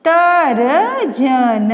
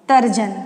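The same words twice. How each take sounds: First: Slow sounding out. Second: Said in the usual way. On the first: Shown as a demonstration. Teacher drawing out तर्जन for young students. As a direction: stretch तर्जन very slowly. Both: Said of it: "तो आपका हो जाएगा".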